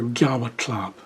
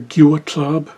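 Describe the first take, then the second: First: The u vowel after the first consonant is dropped. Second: The u vowel after the first consonant is heard.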